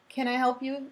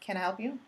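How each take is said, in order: First: It sounds warm, curious and willing to help. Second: It sounds suspicious and looks the listener over.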